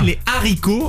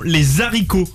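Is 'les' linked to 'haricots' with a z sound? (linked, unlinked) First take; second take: unlinked; linked. First: No z sound links les to haricots. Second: A z sound links les to haricots. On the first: The speaker calls it right. "avec un H aspiré" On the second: The speaker calls it wrong. "l'Académie française n'a jamais accepté de prononciation les haricots"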